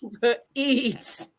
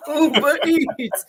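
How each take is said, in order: First: Said in the usual way. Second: Slow, laughing ad-style Uber Eats; laughing brand callout. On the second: Shown as a demonstration.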